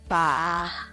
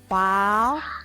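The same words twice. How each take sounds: First: The pitch dips low, then rises. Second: The pitch rises from middle to high.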